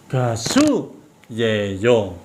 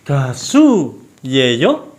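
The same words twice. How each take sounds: First: "Gasu yeyo" said slowly with a flat, falling end; flat statement intonation. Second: "Gasu yeyo" asked slowly with a rising tune at the end; rising question. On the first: Teacher shows the answer form to students, slow and flat-falling. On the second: Teacher asks the Korean question to students, slow with a rising tune. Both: Shown as a demonstration. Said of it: "Tinggal intonasinya didatarkan".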